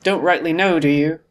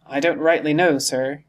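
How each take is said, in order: First: Louder, scornful repeat; indignant, sarcastic questioning; mocking echo. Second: Lightly voiced deferential sailor; hesitant, respectful reply; evasive old sailor. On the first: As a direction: throw his answer back at him. Silver throws the answer back. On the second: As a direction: answer the boss without committing. Sailor answers his questioner evasively. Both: A narrator's reading.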